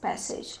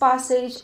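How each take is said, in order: First: The first vowel is a front 'a' as in cat. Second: The first vowel is an open 'ah' sound. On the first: A paragraph of text for reading. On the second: A path or way one passes through.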